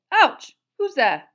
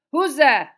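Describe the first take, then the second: First: Loud, high yelp and challenge; yelp, then demand who it is; startled cry. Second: Loud, higher challenge into the darkness; very suspicious. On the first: Wizard bumped into in the dark, startled and loud. Karkaroff is knocked into in darkness. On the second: Wizard searching the darkness for an intruder, very suspicious. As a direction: demand an answer, distrustful and forceful. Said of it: "said Karkaroff again, very suspiciously". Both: A narrator's reading.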